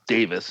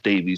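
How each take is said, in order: First: The name ends with a short 'iss' sound. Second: The name ends with a long 'eez' sound. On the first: This is how it is said in England. "They're calling him Davis" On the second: This is how it is said in the States. "we're going to pronounce it as Davies"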